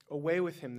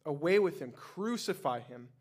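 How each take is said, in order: First: Loud, higher crowd yell. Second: Loud, higher crowd yell, slowing on crucify. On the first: Crowd to Pilate, yelling for Jesus' removal. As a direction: bellow it at the governor. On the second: Crowd to Pilate, a loud yelling demand to crucify. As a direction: roar the demand. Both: A narrator's reading. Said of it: "they yelled".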